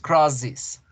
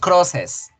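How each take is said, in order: First: The ending is pronounced like 'is'. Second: The ending is pronounced like Spanish 'es'. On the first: The speaker calls it right. "decimos crosses" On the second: The speaker calls it wrong. "no decimos crosses"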